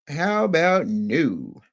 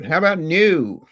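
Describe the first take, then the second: First: Very slow, stretched repeat; drawn out. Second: Louder and slow, pressing the question; emphatic ask. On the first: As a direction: let each word hang, dragging it out. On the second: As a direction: demand it, leaning on each word. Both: Shown as a demonstration.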